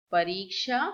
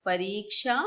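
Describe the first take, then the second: No difference in how they are said.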